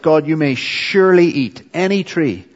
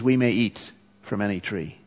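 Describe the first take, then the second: First: Surely pressed hard, a little higher and louder; emphatic surely. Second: Said in the usual way. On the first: Shown as a demonstration. Preacher quoting God's generous command, stress on surely. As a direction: lean on "surely" to show God's generous permission. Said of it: "it's there to emphasize it". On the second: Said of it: "she starts to minimize their privileges".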